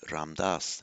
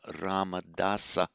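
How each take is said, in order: First: It has two syllables and ends in a consonant. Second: It has four syllables and ends in a vowel. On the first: This is the modern form of the name. "but in modern Hindi" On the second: This is the classical form of the name. "in Sanskrit that we pronounced as Ramadasa"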